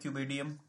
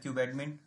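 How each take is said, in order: First: The ending is spelled out as letters A-D-M. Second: The ending is said as the word admin. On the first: "कई लोग बोलते हैं cube एडीएम" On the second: "कई बोलते हैं cube एडमिन"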